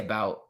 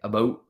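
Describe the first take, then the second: First: It is said in the speaker's own American accent. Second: It is said in an imitated Canadian accent.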